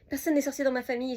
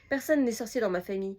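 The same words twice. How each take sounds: First: It is rushed out quickly without pausing for breath. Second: It is read at a normal, relaxed pace.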